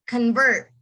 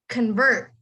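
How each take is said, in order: Both takes have the same delivery.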